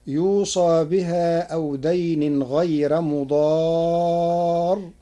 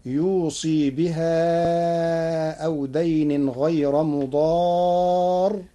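First: Slow recitation, يوصى said yuusaa; يوصى ending in aa. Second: Slow recitation, يوصي said yuusii; يوصي ending in ii. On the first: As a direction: recite slowly, open aa closing يوصى, long held مضار. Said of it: "قرأ ورش كلمة يوصى". (يوصى بفتح الصاد وألف بعدها) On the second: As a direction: recite slowly, long ii closing يوصي, drawn-out مضار. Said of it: "بكسر الصاد وياء بعدها". (يوصي بكسر الصاد وياء بعدها) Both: Shown as a demonstration.

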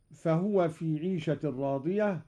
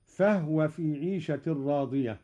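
First: فهو recited fahuwa, ha voweled; standard reading. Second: فهو recited fahwa, ha unvowelled; silenced ha. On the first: Teacher reciting the usual reading: فهو with voweled ha. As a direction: say فهو with a full u on ha. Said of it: "recited before Qalun's variant". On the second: Teacher demonstrating Qalun's reading: فهو with silent ha. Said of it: "أسكن الهاء أيضًا قالون". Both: Shown as a demonstration.

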